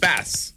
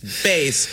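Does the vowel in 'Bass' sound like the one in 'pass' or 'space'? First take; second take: pass; space. First: The vowel sounds like the one in pass. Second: The vowel sounds like the one in space. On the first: "he was training in Russia to go to Spass. ... It's Bass" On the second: "Whereas it [name] goes to space"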